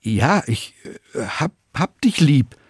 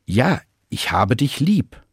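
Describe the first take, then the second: First: Halting, stumbling, higher on the repeat; nervous faltering confession; stammering. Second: Slow, firmer and more resolute; a steadier, determined answer; more forceful. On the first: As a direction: stammer it out, lost for words. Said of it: "Und Petrus stammelt". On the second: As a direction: say it with more conviction. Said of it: "etwas energischer". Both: A narrator's reading.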